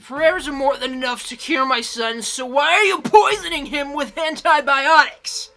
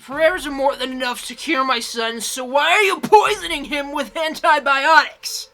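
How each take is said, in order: First: Furious, shouted accusation; angry scream. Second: Furious shouted accusation; angry yelling. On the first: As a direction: scream it at the priest in rage. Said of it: "she screamed". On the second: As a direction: yell it at the priest. Intro clip of mother screaming at priest. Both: Acted.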